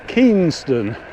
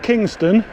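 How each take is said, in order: First: The first syllable sounds like 'keen'. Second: The first syllable sounds like 'king'. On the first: The speaker calls it right. "Keenston. K E Y N" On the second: The speaker calls it wrong. "Not Kingston"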